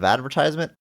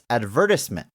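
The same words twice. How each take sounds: First: The word is said with the American pronunciation. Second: The word is said with the British pronunciation. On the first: This is how the speaker expects it to be said. The speaker calls it right. "instead of advertisement" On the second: This is how an actor said it in a film. The speaker calls it wrong. "Mel Gibson says advertisement"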